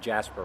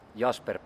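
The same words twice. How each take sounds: First: The name is said with an American pronunciation. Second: The name is said with a Finnish pronunciation. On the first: This is how Americans say it. "Americans usually tend to go the Jasper route" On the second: This is the speaker's real name. "that's the uh, the Finnish pronunciation"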